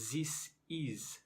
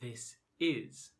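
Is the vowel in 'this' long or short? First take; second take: long; short. First: The vowel in 'this' is long and tense. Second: The vowel in 'this' is short and lax. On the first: The speaker calls it wrong. "non-native speakers say this is" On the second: The speaker calls it right. "instead of this is"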